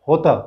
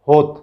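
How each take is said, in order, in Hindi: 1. अंतिम स्वर ज़्यादा खींचा जाता है। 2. अंतिम स्वर छोटा बोला जाता है। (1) "होत के त पर भी अनुस्वार है" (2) "अगर ये त पर का अनुस्वार निकाल लिया जाए तो इसको क्या पढ़ेंगे"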